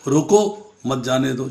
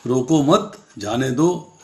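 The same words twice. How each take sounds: First: "रोको" on its own, then "मत जाने दो" joined; pause after रोको. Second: "रोको मत" as one unit, then "जाने दो"; pause after मत. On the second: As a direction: keep "मत" with "रोको", break before "जाने दो". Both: Shown as a demonstration. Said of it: "दो तरीके से बोले".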